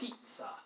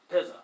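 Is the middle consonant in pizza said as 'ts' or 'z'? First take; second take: ts; z. First: The middle consonant is said as 'ts'. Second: The middle consonant is said as 'z'. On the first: The speaker calls it right. "a Z in Italian makes a TS sound" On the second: The speaker calls it wrong. "which would be sort of a lame way of saying that"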